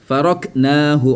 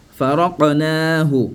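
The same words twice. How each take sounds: First: "Faraqnahu" with stopped k, farok-naahu; without qalqala. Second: "Faraqnahu" slow with bounced q, fa-ra-qa-naahu; qalqala. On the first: Teacher shows what is not said, without qalqala. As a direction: shut the k in "Faraqnahu", then long naa. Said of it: "on n'a pas dit". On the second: Teacher gives the right form, qalqala. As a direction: echo the q in "Faraqnahu", stretching naa. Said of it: "On dit quoi?". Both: Shown as a demonstration.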